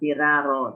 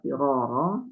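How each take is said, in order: First: The r is pronounced light and thin. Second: The r is pronounced heavy and thick. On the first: The speaker calls it wrong. "Bukan firaro, tidak" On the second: The speaker calls it right. "Tetap firoro"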